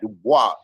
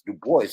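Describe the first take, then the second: First: The name is pronounced the French way. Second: The name is pronounced the English way. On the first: This is not how the man himself said his name. The speaker calls it wrong. "and not Dubois" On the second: This is how the man himself said his name. The speaker calls it right. "He said his name was Du Bois"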